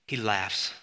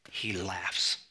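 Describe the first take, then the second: First: Said in the usual way. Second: Low, soft and dark; hushed. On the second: Shown as a demonstration. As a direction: drop the voice low and quiet for effect.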